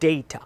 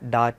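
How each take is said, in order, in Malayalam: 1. ആദ്യ സ്വരം 'ay' ശബ്ദമാണ്. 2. ആദ്യ സ്വരം തുറന്ന 'ah' ശബ്ദമാണ്. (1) "ഒരു എ കൊടുക്കണം അവിടെ" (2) "ഡാറ്റ എന്ന് പറയുന്നത് ഒരു റോങ് പ്രൊനൗൺസിയേഷൻ ആണ്"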